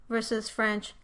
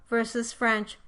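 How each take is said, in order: No difference in how they are said.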